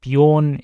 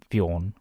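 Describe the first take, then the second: First: Said in the usual way. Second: Bjorn said the Norwegian way, soft rising ending. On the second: Shown as a demonstration. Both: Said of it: "imagine it's said with a Norwegian accent".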